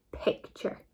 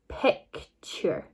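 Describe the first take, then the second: First: Said in the usual way. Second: PICTURE split into two slow parts; sounded-out blend. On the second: Shown as a demonstration. Teacher blending for pupils, PICTURE in two separated parts. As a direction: break PICTURE after the first syllable, pic, ture. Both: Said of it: "So all together it makes".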